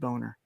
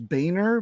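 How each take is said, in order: First: The name is said in an altered pronunciation. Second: The name is said in its original pronunciation. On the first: This is how the speaker personally says it. "I pronounce it" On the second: This is the name's true form. "the true pronunciation is"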